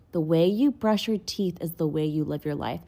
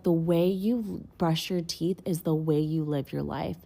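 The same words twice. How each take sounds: First: Said in the usual way. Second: Slow, weighty retelling of a friend's saying; slow wise quote. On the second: Retold or imitated. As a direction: lay each word down slowly like a lesson. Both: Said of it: "And he was like".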